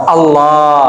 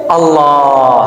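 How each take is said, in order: No difference in how they are said.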